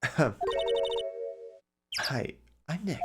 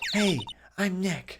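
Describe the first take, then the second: First: It is said at a quieter volume. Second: It is said at a louder volume.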